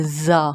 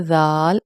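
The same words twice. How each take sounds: First: زا with a firm z; hard, held زا; hard letter sound. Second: زال with soft "dh"; long, soft زال; soft letter sound. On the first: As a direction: say زا as a buzzing "zaa". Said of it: "hardly پڑھتے ہیں". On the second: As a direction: say زال as a gentle "dhaal". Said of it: "زال soft پڑھا جاتا ہے". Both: Shown as a demonstration.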